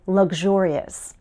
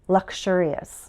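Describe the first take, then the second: First: The middle has a G then ZH sound. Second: The middle has a K then SH sound.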